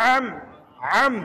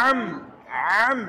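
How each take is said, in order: No difference in how they are said.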